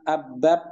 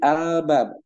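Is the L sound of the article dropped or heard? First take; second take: dropped; heard. First: The L sound of the article is dropped. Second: The L sound of the article is clearly heard. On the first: The speaker calls it wrong. "bukan abab" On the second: The speaker calls it right. "tapi al-bab karena alnya dibaca"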